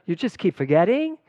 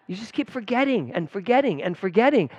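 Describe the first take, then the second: First: Put-on Valley-girl uptalk, louder and higher, rising on "forgetting". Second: Said in the usual way. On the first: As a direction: lift the end like a Valley girl. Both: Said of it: "turning into a Valley girl".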